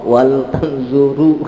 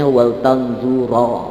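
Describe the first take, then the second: First: The last word ends with a u vowel. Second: The last word ends with an a vowel. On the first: "nggak boleh" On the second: "nggak boleh dibacanya"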